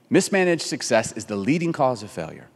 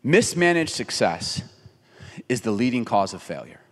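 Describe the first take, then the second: First: Said in the usual way. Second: Preacher lands "Mismanaged success" slowly for effect; slow emphatic saying. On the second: Shown as a demonstration. Pastor to congregation, slow weighty emphasis. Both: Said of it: "Can I say it this way?".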